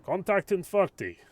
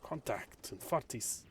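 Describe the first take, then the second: First: Put-on German accent, higher and louder; a driver barking in German English. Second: Put-on slipping German accent. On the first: German driver calling the contact warning, German accent. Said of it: "I can't do a German accent now". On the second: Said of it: "I'm slipping it".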